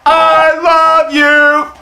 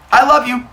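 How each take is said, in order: First: It is said loudly. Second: It is said at normal, quiet volume.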